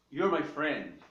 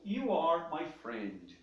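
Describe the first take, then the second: First: You are is contracted into one syllable. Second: You are is said as two full words. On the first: "You are se transforma nessa palavrinha aqui" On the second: "Nós temos o you are"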